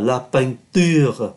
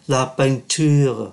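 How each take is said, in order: First: The t is a plain, crisp t sound. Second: The t is softened, drifting toward ch. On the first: "đọc đúng cái T của nó" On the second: "đôi khi người ta đọc nó hơi ướt ướt"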